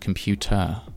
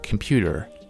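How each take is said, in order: First: The middle T is said as a clear T. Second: The middle T is said like a D. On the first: "instead of computer" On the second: "the T sound has become a D sound in American English"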